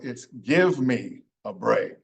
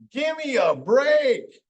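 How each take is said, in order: First: Each word is said fully and separately. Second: The words are reduced and run together.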